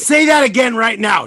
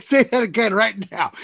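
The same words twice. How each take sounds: First: Loud excited demand; shouting. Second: Said in the usual way. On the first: Real, not acted. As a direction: call it out loud and sharp. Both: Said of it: "I was like".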